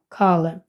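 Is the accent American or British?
American. The first vowel is an American A-like sound. "в американській англійській буде звучати більше як А"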